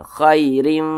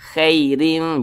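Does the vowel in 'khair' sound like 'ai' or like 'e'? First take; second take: ai; e. First: The vowel in khair is a soft ai. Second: The vowel in khair leans toward e. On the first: The speaker calls it right. "tapi dilunakkan khairim gitu" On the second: The speaker calls it wrong. "jangan sampai condong ke e. Jangan dibaca khairim"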